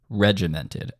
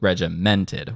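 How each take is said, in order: First: The stress is on the first syllable. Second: The stress is on the third syllable. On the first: The speaker calls it right. "That is a front-loaded accent" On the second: The speaker calls it wrong. "which is sort of where I am setting it. I'm placing the accent here because mented is on the third beat"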